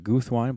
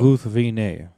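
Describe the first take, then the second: First: The name is said with two syllables. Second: The name is said with three syllables. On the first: The speaker calls it wrong. "most people pronounce it Guthwine" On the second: The speaker calls it right. "it's supposed to be, what, three syllables"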